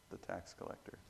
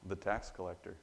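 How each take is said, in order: First: Almost whispered, much softer; hushed repeat. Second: Said in the usual way. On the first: Real, not acted. Preacher echoing the answer to his congregation, hushed. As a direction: let the answer sink in quietly.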